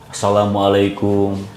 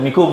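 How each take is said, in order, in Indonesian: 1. Semua suku kata salamnya diucapkan. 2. Hanya suku kata akhir salamnya yang diucapkan.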